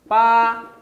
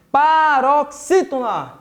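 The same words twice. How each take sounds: First: "Paroxítona" broken into pa, ro, xí, tona with long pauses; "Paroxítona" dictated piece by piece; syllable by syllable. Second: Said in the usual way. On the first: Shown as a demonstration. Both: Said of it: "Acompanha aí".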